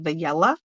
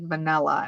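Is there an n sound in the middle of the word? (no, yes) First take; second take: no; yes. First: The middle n sound is missing. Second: The middle n sound is clearly pronounced. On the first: The speaker calls it wrong. "she couldn't pronounce vanilla" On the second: The speaker calls it right. "she pronounced the N"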